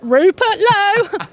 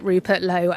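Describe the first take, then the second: First: The name is said noticeably louder. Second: The name is said at normal volume.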